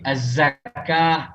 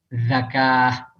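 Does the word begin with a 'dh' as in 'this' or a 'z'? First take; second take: z; dh. First: The word is said with a plain 'z' sound. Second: The word is said with a 'dh' as in 'this'. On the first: It means alms. The speaker calls it right. "zai dibaca zal" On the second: It means a slaughtered animal. The speaker calls it wrong. "zai dibaca zal"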